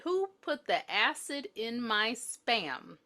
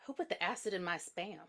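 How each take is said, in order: First: Slow replay. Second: Deadpan quote. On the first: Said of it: "make sure this is what she said". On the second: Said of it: "And Rachel said". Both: Retold or imitated.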